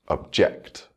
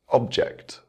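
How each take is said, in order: First: The stress is on the second syllable. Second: The stress is on the first syllable. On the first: It is used as a verb. "with the verb, the stress will fall on the second syllable" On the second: It is used as a noun. "the noun will have its word stress on the first syllable"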